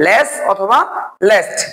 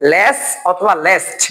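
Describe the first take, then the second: First: Said in the usual way. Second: লেস অথবা least said slowly, each word stretched; slow and drawn out. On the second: Shown as a demonstration. (লেস অথবা least টেনে টেনে ধীরে বলা) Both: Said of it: "এগুলো আরো একটা নিয়মে করা যায়".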